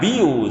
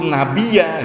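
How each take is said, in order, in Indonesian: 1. Kata ini berakhir dengan vokal u. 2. Kata ini berakhir dengan vokal a. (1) "jangan nabiyu" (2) "Sami itu nabiya gitu Pak"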